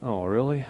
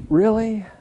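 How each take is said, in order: First: Mock dismay. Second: "really" jumps much higher and louder, falling; hammed-up groan of disbelief on "really"; mock disbelief. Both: Groaning at another year.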